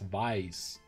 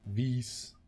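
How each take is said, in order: First: The vowel sounds like the one in 'vie'. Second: The vowel does not sound like 'vie'. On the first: The speaker calls it right. "it's like to vie for something, right? Like, I just add an S" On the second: The speaker calls it wrong. "it's better than Vis"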